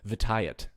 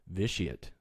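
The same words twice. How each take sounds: First: Vitiate said as vih-TIE-it; alternate pronunciation. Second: Vitiate said slowly as VISH-ee-it; careful pronunciation. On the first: Host teased for mispronouncing the name, alternate pronunciation. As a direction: pronounce Vitiate with a hard "t", stress on TIE. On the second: Host carefully naming a Sith on his poll, careful pronunciation. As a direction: pronounce Vitiate with a "sh", stress on the first syllable. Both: Shown as a demonstration. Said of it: "I have to say it like that".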